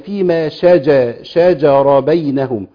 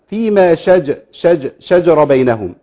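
First: The jim is followed by a short vowel. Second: The jim is said with no vowel after it. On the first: The speaker calls it right. "هي فيما شجر بينهم" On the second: The speaker calls it wrong. "أنا كده سكنت الجيم"

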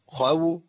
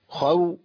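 No difference in how they are said.

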